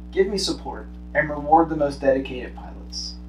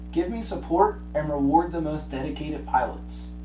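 Both takes have the same delivery.

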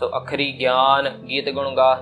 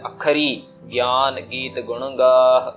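First: There is no pause after the first word. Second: There is a pause after the first word.

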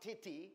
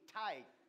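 First: It is said as 'titty', ending in 'ee'. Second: It is said with a long 'i' and final 'th'. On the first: The speaker calls it wrong. "Not titty" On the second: The speaker calls it right.

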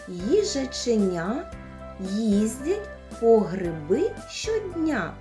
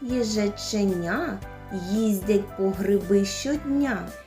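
First: The phrase is spoken slowly. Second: The phrase is spoken a bit faster. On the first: "Спочатку повільно" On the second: "трішечки швидше"

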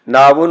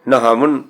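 First: The word has no h sound after the n. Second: The word has an h sound after the n. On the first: "ਨਾਵਨ ਲਿਖਿਆ" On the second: "ਨੰਨੇ ਹੇਠ ਅਦੇ ਹਾਏ ਦਾ ਉਚਾਰਨ ਕਰਕੇ"

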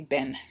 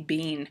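First: It is said in an American accent. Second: It is said in a non-American accent. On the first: "Americans say been" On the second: "I say been"

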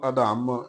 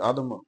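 First: The word is said with force and weight. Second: The word is said softly and lightly. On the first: The speaker calls it wrong. "ਇਹਨੂੰ ਅਧਮ ਇਦਾਂ ਨਹੀਂ ਉਚਾਰਨ ਕਰਨਾ" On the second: The speaker calls it right. "ਪੋਲਾ ਹੀ ਆਦਮ ਪਤੰਗ ਉਚਾਰਨ ਕਰਨਾ ਹੈ"

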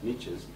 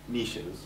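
First: The word is said in an American pronunciation. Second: The word is said in a non-American pronunciation.

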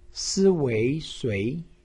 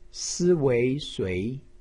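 First: The pitch rises from mid to high. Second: The pitch rises from mid to high.

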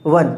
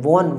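First: The vowel is an 'uh' sound, like 'one'. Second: The vowel is a rounded 'o' sound. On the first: The speaker calls it right. "इसका pronunciation भी वो ही है वन" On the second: The speaker calls it wrong. "लोग generally WON को won पढ़ते हैं"

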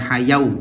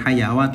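First: An extra 'u' sound follows the long vowel. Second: An extra 'wa' sound follows the long vowel. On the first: "Bukan hayau" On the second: "bukan hayawa"

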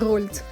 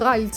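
First: The name is said with an 'oh' vowel. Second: The name is said with an 'ah' vowel. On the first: The speaker calls it right. "а він виявляється Рольц" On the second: The speaker calls it wrong. "в мене він постійно Ральц був"

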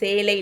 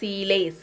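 First: The first vowel is a long 'e' sound. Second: The first vowel is a long 'i' sound. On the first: The speaker calls it wrong. "சேலை இல்லை சீலை" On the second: The speaker calls it right. "இல்லை சீலை"

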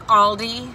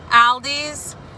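First: The name ends without any s sound. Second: The name ends with an added s sound. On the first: This is the store's actual name. The speaker calls it right. "but I know it's Aldi" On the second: This is how the speaker's family says it. The speaker calls it wrong. "Me and my family pronounce it Aldi's"

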